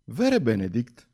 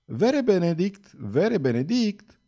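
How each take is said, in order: First: Said in the usual way. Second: Higher, slow call across the deck. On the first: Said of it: "zise doamna Weldon". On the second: A narrator's reading. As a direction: call out to her cousin, drawn out. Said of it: "Și strigând îl chemă". (strigă chemându-l, rar și mai sus)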